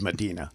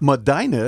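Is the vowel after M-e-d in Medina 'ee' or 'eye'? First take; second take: ee; eye. First: The middle vowel is an 'ee' sound. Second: The middle vowel is a long 'eye' sound. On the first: This is how an outsider would say it. "I would have said Medina" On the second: This is how the locals say it. "You said it's a long I. Medina is how he pronounced"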